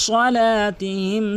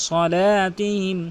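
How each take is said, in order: Both takes have the same delivery.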